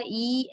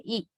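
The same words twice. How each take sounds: First: E held long, tense vowel. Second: E cut short, lax vowel. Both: Shown as a demonstration. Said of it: "long E and short E".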